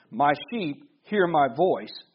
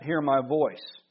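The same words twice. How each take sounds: First: Said in the usual way. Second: Slow, leaning hard on "hear" in "hear my voice"; stress on hear. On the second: Shown as a demonstration. Pastor repeating Jesus' words to the congregation, slow stress on "hear". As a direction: draw out "hear" and let "my voice" fall away. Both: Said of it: "I put emphasis on that".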